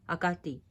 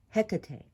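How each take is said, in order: First: The name is said with its Greek pronunciation. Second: The name is said with its English pronunciation. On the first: "the Greek name pronunciation" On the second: "what we call Hecate"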